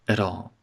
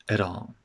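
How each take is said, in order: No difference in how they are said.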